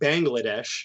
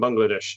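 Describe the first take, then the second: First: It is said with an ordinary American pronunciation. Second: It is said with a Bangladeshi pronunciation. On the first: The speaker calls it wrong. "it sounds nicer than saying Bangladesh" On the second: The speaker calls it right. "that's how he says it"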